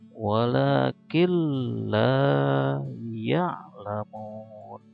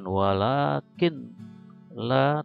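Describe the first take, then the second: First: The n merges into a doubled l sound. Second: The n is pronounced clearly before the l. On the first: The speaker calls it right. "tapi walakin la ya'lamun gitu ya" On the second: The speaker calls it wrong. "bacanya bukan walakin la"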